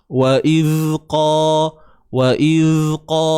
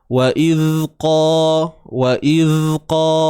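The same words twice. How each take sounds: Both takes have the same delivery.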